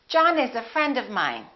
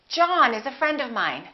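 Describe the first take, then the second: The two takes are said the same way.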